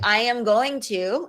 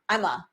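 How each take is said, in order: First: Each word is said separately and in full. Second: The words blend into a very short form.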